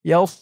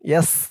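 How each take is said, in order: First: The s is heavy, said with a full rounded mouth. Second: The s is thin and light, without mouth fullness. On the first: The speaker calls it right. "বলতে হবে ইয়াস, মুখটা একটু গুল ভরপুর হয়ে যাবে" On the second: The speaker calls it wrong. "ইয়াস বলা যাবে না। ইয়াস বললে কিন্তু এই সদের জায়গায় সিনের উচ্চারণ হয়ে যাবে।"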